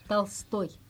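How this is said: The name is said with Russian pronunciation. The speaker calls it right. "l'accent est sur toy"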